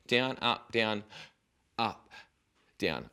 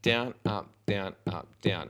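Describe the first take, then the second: First: Down, up, down, then a hanging gap before UP and before DOWN; halting midway. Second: DOWN, UP, DOWN, UP, DOWN evenly spaced with no stopping; continuous count. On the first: Teacher showing learner what not to do, pattern stopped midway. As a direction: break the count with pauses before the last "up" and "down". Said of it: "stop the pattern midway". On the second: Teacher showing learner the right rhythm, continuous count. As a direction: keep "down, up" ticking steadily through to the last "down". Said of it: "I want it to be continuous notes".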